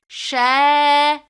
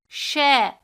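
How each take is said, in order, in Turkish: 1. "sh" sesinden sonraki ünlü uzundur. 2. "sh" sesinden sonraki ünlü kısadır. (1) "harfimizi bir elif miktarı uzatırız" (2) "harekeli olarak mahrecinden çıkarıldığında nefes çok harcanır"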